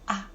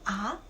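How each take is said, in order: First: The pitch does not rise on ah. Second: The pitch rises on ah. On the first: It means yes. "it means yes, yes, but it's like the letter tone" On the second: It introduces a question. "It sounds like the second tone"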